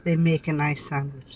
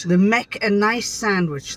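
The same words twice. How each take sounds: First: Said in the usual way. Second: Broad Yorkshire, "make" said as "mek"; Yorkshire dialect. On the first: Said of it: "That means". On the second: Shown as a demonstration. Wife demonstrates for the Yankees, broad Yorkshire. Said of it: "that's Yorkshire".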